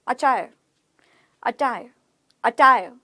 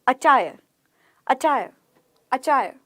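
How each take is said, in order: Both takes have the same delivery.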